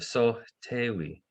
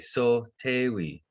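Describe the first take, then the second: First: It is said the downriver way, with a light H. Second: It is said the upriver way, without a light H.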